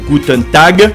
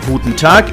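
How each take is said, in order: First: The final sound of Tag is a G. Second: The final sound of Tag is a K. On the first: The speaker calls it wrong. "et non ge comme dans glace" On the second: The speaker calls it right. "il se prononce que, comme dans cœur"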